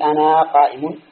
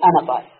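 First: The first word ends in a long vowel. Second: The first word ends in a short vowel. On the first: The speaker calls it wrong. "هل أنت تقول أنا قائم؟" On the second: The speaker calls it right. "كما أنه قد توجد الألف ولا ينطق بها"

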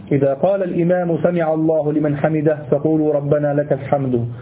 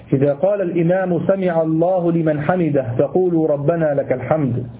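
The two takes are said the same way.

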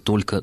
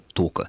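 First: The word is said in full, two syllables clear. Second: The word is said shortened, the l sound dropped. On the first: The speaker calls it right. "вместо «только»" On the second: The speaker calls it wrong. "грязь"

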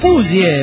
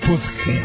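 First: The word ends in an 'ee' sound. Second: The word ends in a 'dge' sound. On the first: The speaker calls it right. "no es pudge, es puzie" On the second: The speaker calls it wrong. "como metiendo la lengua entre los dientes"

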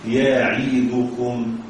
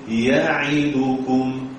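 Both takes have the same delivery.

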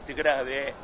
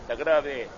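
No difference in how they are said.

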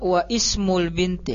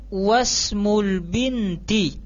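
First: The initial 'i' of ismul is pronounced separately. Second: The 'i' is dropped, joining 'wa' to 'smul'. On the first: The speaker calls it wrong. "kita enggak baca wa ismul binti. Nah, di sini kurang pas" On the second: The speaker calls it right. "langsung kita masukkan ke huruf setelahnya"

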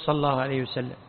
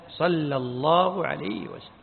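First: The phrase is rushed, with the name of God slurred. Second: The phrase is unhurried, with the name of God clear. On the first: The speaker calls it wrong. "ما نقول" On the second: The speaker calls it right. "فإن العجلة ما هي طيبة"

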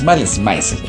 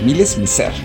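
First: The name is pronounced in an English way. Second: The name is pronounced in a French way. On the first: The speaker calls it wrong. "no es Malice Mizer" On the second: The speaker calls it right. "como algo así como la pronunciación en francés"

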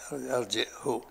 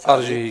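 First: There is a glottal stop and the final ha has u. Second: The final ha has only a brief, partial vowel. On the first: "بالهمزة وضم الهاء" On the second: "كانهم يقرأونها بسرعة كذا"

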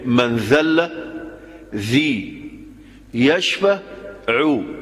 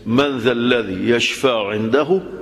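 First: It breaks with a pause after the opening words. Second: It flows without a pause after the opening words. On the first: It claims whoever humbles himself is healed. The speaker calls it wrong. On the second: It asks who could intercede with God. The speaker calls it right.

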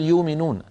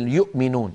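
First: No glottal stop; the vowel is simply lengthened. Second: A glottal stop is heard after the first syllable. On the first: "وقريش تقول يؤمنون، حتى تكون بالصورة قريش لا تهمز الهمزات الساكنة" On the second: "سواء كانت الهمزة ساكنة مثل يؤمنون"

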